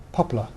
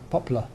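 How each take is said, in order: No difference in how they are said.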